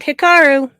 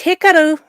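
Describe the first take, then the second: First: The name is said with English-style pronunciation. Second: The name is said with Japanese-style pronunciation. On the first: The speaker calls it wrong. "not Hikaru" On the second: The speaker calls it right. "it's Hikaru"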